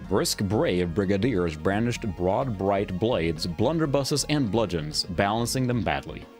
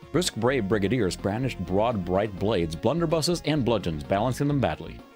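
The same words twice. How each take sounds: First: It is said at a normal pace. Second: It is said at a fast pace.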